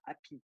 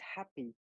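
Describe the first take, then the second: First: It is said with a French accent, no h. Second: It is said with a clearly breathed h.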